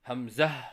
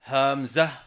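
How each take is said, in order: First: The opening syllable is kept short. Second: The opening syllable is drawn out long. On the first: The speaker calls it right. "सही अदायगी है" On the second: The speaker calls it wrong. "शुरू की हा को लंबा करके पढ़ते हैं"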